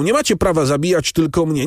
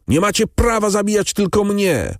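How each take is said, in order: First: High pleading cry, MACIE stressed; first plea, high but not yet screaming; desperate protest. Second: Very high screamed protest, PRAWA hit hardest; the same protest now screamed while wrestling the helpers; frantic scream. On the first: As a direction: plead against dying alone. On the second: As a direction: scream it at the executioners. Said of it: "Skazany wrzeszczał bez przerwy". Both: A narrator's reading.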